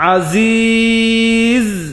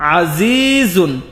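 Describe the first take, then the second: First: The word ends on a bare consonant. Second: The word ends with an added -un ending. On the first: The reader stops at this point. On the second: The reading continues without stopping.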